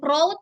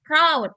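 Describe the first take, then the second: First: "proud" mistakenly as "prow-oo", with an O vowel: prode; wrong pronunciation. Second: "proud" with an OW vowel; correct pronunciation. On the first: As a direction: show the wrong "proud", rhyming with "road". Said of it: "bukan proud". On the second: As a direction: model "proud", rhyming with "loud". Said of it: "tapi proud". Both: Shown as a demonstration.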